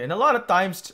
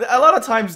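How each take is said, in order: First: Filipino accent slipping out. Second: Said in the usual way. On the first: Real, not acted. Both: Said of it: "my Filipino accent come up there".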